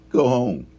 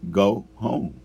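First: Loud, higher dismissal; retold angry order. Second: "Go home" as two separated, stressed words; retold emphatic repeat. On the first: Upset dude sending the new worker away, angry order. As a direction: replay a sharp order to leave. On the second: Upset dude answering "What?", "Go home" spaced out emphatically. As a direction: repeat "Go home" firmly, word by word. Order repeated after being questioned.

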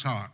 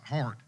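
First: "heart" with no R, like "hot"; "heart" drawled without its R; dropped R. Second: "heart" with a clear R before the T; "heart" corrected, R pronounced; R sounded. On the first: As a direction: say "heart" R-less, sounding like "hot". Says heart, then repeats it corrected. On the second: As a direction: repeat "heart" with the R put back. Repeats the word to fix it. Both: Real, not acted.

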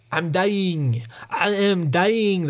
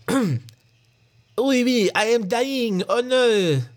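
First: Slow, raised-pitch mock French accent; badly faked French accent, words stretched out. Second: High, slow, hammed-up French accent. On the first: Wounded Frenchman telling the ranger, slow hammy French accent. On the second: Gored Frenchman lamenting to the ranger, high mock French accent. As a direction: wail it as a cartoon Frenchman. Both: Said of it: "That's my French accent".

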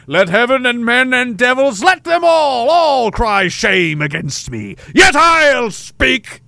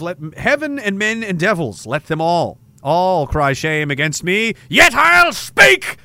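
First: Grand theatrical declamation, louder and much higher on the climax; slow, swelling Shakespearean delivery, last words much higher and louder; period stage actor. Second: Shakespeare recital. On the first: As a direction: proclaim it like a period duelist on stage. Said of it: "you have an accent, and you talk like that". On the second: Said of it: "William Shakespeare, Othello". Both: Acted.

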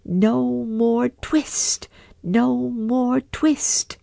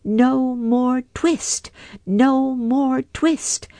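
First: Higher, very slow sung mouse chant; mice singing. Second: High, slow mouse chant; twittering mouse shout. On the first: Mice singing behind the shutters, slow and higher. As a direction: sing it slowly like mice. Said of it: "little mouse voices singing". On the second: Mice shutting out Simpkin, high slow chant. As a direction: squeak it out like tiny mice. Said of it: "shout at once in little twittering voices". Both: A narrator's reading.

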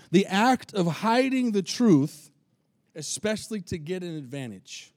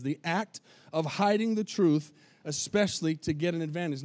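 First: Slow, stressed reading of the act of hiding the truth; slow emphatic definition. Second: Said in the usual way. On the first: Shown as a demonstration. Pastor reading the definition of deception to the church, slow and stressed. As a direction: lay the definition down word by word. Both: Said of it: "that's what the definition of deception is".

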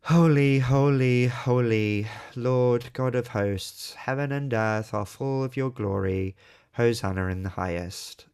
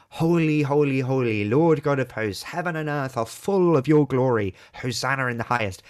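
First: Flat, slow Holy holy holy read by rote; dull recitation. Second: Louder, rising Holy holy holy with joy; exultant proclamation. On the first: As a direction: drone Holy like a bored congregation. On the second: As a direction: proclaim Holy like a great hymn of heaven. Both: Shown as a demonstration. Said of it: "how do we read it most of the time".

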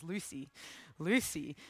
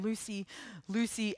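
First: Low, soft call of a name in the night; a voice calling softly in the night. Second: Softer distant call of a name; the voice calling her once more. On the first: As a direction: call her gently from the dark, much softer. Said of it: "this voice calling her". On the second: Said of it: "it calls again". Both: A narrator's reading.

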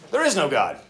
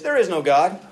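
First: Mock atheist. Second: Said in the usual way. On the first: Preacher voicing the atheist. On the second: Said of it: "he says".

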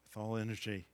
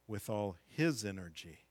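First: Said in the usual way. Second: "his" leaned on as the correction; stress on his. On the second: Shown as a demonstration. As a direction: hit the word "his" in "with all his energy".

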